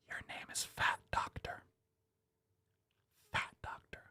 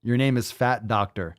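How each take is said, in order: First: Hushed, breathless whisper. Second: Said in the usual way. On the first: Acted. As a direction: whisper it like a secret. Repeating name in hushed awe.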